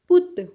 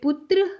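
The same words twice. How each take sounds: First: It is said with a Punjabi tone. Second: It is said with a Hindi pronunciation. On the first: "Punjabi में पुत्र" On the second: "Hindi में पुत्र"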